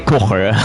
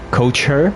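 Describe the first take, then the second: First: The name is said as one word, 'kocher'. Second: The name sounds like the words 'coach her'. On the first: The speaker calls it wrong. "I'll probably say kocher a lot of times" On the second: The speaker calls it right. "I'll try and remember to pronounce this as coach her"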